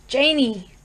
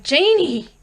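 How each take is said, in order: First: Loud call of her name; crying out. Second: Much higher, louder cry of her name; desperate cry. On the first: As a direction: call out to his daughter. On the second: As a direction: cry out with everything he has. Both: A narrator's reading. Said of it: "Lumley cried".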